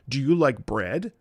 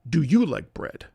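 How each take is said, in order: First: The pitch rises at the end. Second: The pitch falls at the end.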